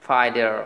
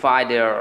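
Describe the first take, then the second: Both takes have the same delivery.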